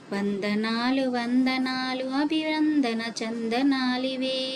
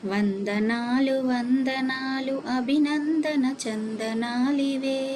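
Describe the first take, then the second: Both takes have the same delivery.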